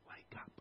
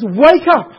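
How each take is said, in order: First: It is said calmly, without urgency. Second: It is said urgently, with force. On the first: The speaker calls it wrong. "No, it doesn't" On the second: The speaker calls it right. "There's urgency here in this passage"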